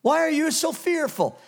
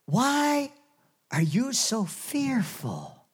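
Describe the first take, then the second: First: Raised, pointed rebuke straight in the eye; Jesus confronting fearful disciples, firm and loud. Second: Gentle Jesus rebuke. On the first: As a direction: look them in the eye and demand it. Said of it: "He looked them right in the eye". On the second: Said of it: "Jesus just looks at them and says". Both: Acted.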